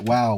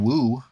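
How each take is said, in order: First: The word ends with an 'ow' sound. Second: The word ends with an 'oo' sound. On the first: The speaker calls it right. "It rhymes with wow" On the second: The speaker calls it wrong. "Nobody's saying woo"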